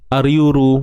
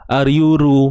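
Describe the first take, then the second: Both takes have the same delivery.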